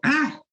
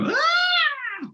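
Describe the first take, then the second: First: Sudden high-pitched yelp. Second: Very high piercing squeal, higher than the first; squeaky high shriek. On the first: Dexter warming up before a game, high yelp. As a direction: let out a squeaky high shout. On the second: Dexter suddenly yelling in the locker room, squeaky shriek. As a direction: shriek it way up at the top of the voice. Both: Retold or imitated. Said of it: "he had this high voice".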